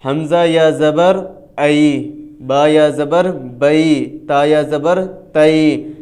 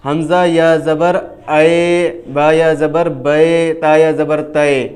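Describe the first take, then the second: First: ای, بئی, تئی ended with a short "ai" glide; chanted spelling drill with the short "ai" sound; correct maroof reading. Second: اے, بے, تے said with a flat Urdu "e" vowel; deliberately wrong demo of بے and تے; wrong majhool reading. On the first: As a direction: teach the open "ai" ending in بئی and تئی. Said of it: "اس کو کس طرح ادا کرتے ہیں". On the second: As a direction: demonstrate the mistaken "e" ending in بے and تے. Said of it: "مجہول انداز میں ایک بار پڑھ کے بتا دیں". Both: Shown as a demonstration.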